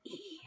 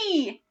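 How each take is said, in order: First: Very soft whispered sound; a tiny whisper for the class. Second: A bright shouted sound; teacher leading a class shout. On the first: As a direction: breathe the sound out quietly. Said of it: "Let's whisper it really quietly". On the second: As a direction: call it out loud. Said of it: "Let's shout it really loudly". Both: Shown as a demonstration.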